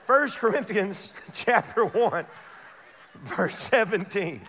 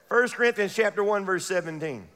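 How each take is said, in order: First: Slow Bible reference with a laugh; slow laughing read. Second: Said in the usual way. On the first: Shown as a demonstration. Preacher rereading the verse slowly to the congregation, slow with a laugh. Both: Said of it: "Watch this".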